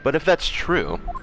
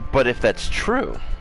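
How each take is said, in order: First: The voice stays steady through the phrase. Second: The voice cracks partway through the phrase. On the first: The speaker calls it right. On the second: The speaker calls it wrong.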